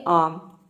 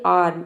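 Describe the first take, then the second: First: आम with no r, long open aa; silent r. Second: आर्म with the र clearly voiced; wrong pronunciation, r sounded. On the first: Teacher showing students the correct arm, आम with silent r. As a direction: say आम, dropping the r before m. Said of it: "आप इस तरह से बोलेंगे". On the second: Teacher showing students' mistake, आर्म with sounded r. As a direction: say आर्म as learners do, r audible before m. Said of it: "अक्सर student इसको गलत pronounce करते हैं". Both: Shown as a demonstration.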